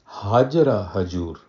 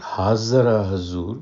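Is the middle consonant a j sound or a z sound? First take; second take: j sound; z sound. First: The words are said with a j sound. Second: The words are said with a z sound. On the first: This is the Indian vernacular form. "because we don't have the Z sound in the Indian vernacular" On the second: This is the Arabic form. "which is the Arabic"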